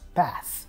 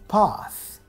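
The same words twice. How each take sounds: First: The A has a flat American vowel. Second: The A has a broad British 'ah' vowel.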